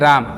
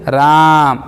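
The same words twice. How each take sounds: First: The word is said at normal length. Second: The word is drawn out and held longer. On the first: "ऐसे normal बोलिए" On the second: "इसको बोलिए"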